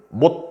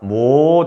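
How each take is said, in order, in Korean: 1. 이 말은 짧게 끊고 닫아요. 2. 이 말은 길게 늘여 발음해요. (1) "끝을 딱 닫는 거라고" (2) "이렇게 길게 발음 안 한다는 뜻이야"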